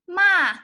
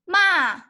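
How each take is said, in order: First: The pitch falls sharply from high. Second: The pitch falls sharply from high.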